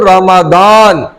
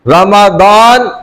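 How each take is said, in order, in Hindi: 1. बीच का व्यंजन d की ध्वनि है। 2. बीच का व्यंजन d की ध्वनि है।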